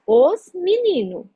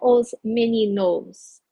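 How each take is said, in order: First: The final s of meninos is dropped. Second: The final s of meninos is pronounced. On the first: This is relaxed everyday speech. "eu não estou marcando plural" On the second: This is not how people normally say it. "não os meninos"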